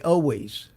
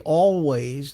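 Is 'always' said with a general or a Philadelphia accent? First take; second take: Philadelphia; general. First: It is said with a Philadelphia accent. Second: It is said with a general American pronunciation. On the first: "They say always" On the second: "they don't say always"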